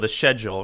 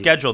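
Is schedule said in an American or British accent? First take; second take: British; American. First: Schedule is said with a British pronunciation. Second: Schedule is said with an American pronunciation.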